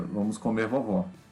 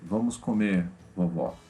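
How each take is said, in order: First: There is no pause after comer. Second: There is a pause after comer.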